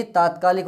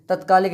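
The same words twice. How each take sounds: First: तात्कालिक with long opening "taa"; long first vowel. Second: तत्कालिक with short first "ta"; wrong short vowel. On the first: Teacher correcting students' word, long-vowel तात्कालिक. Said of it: "तत्कालिक नहीं". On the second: Teacher showing students the misspelt form, short-vowel तत्कालिक. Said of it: "तात्कालिक होता है". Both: Shown as a demonstration.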